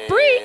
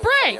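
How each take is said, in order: First: The word ends with an 'ee' vowel. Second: The word ends with an 'ay' vowel. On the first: This is how the speaker expected it to be said. "I thought brie cheese was brie" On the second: This is how the French supposedly say it. "apparently they're calling it bray"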